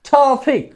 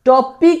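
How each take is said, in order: First: The t is released with a puff of air. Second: The t is plain, without a puff of air. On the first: The speaker calls it right. "এরকম ভাবে উচ্চারণ করার চেষ্টা করব" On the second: The speaker calls it wrong. "টপিক না কিন্তু"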